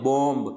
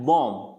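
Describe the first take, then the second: First: बॉम्ब with the final B sounded; wrong pronunciation. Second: बॉम्ब said as "bom", ending on M; silent B. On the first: Teacher shows what people usually say, बॉम्ब with an audible last B. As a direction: end बॉम्ब on "mb". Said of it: "बॉम्ब नहीं होता है". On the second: Teacher gives students the answer, बॉम्ब pronounced bom. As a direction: drop the last B of बॉम्ब. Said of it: "बी को क्या करना है". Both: Shown as a demonstration.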